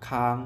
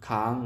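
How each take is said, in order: No difference in how they are said.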